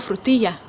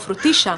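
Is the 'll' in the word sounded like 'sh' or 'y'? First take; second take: y; sh. First: The 'll' is pronounced like a 'y' sound. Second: The 'll' is pronounced like an 'sh' sound. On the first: "nunca digo frutilla" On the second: "siempre digo frutilla, porque es una palabra que yo aprendí en Argentina"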